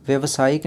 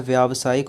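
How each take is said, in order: First: व्यवसायिक with a short 'व्य' at the start; व्यवसायिक opening on a short 'a' sound; wrong form said aloud. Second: व्यावसायिक with a long 'व्या' at the start; व्यावसायिक opening on a long 'aa' sound; correct form said aloud. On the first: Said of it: "नहीं होता है". (व्यवसायिक, शुरू में छोटे 'अ' के साथ गलत रूप) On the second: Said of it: "होता है". (व्यावसायिक, शुरू में लंबे 'आ' के साथ सही रूप) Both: Shown as a demonstration.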